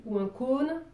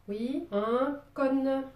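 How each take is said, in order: First: Said in the usual way. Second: Cône with a long open southern o, said slowly and drawn out; accent du sud. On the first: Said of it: "pour vous autres". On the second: Shown as a demonstration. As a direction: say cône the Marseille way, slow and long. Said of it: "avec mon accent du sud". (accent marseillais, « cône » lent et ouvert)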